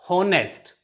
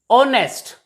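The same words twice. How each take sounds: First: The word begins with an H sound. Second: The word begins with a vowel sound. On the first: The speaker calls it wrong. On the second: The speaker calls it right. "H is also silent here"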